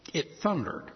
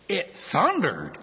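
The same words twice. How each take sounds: First: Said in the usual way. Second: Slow, incredulous echo of a silly answer; amused disbelief. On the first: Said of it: "heard it said". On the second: Acted. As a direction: repeat it as if you can't believe it. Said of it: "I kinda giggle at that and say".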